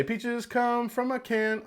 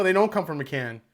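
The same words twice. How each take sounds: First: Slow, high, softer mock quote. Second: Don't punched, falling tune at the end; stress on don't. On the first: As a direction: quote it slowly and mockingly. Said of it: "Oh, no, they did say". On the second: Shown as a demonstration. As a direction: hit the word don't firmly. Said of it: "Oh, no".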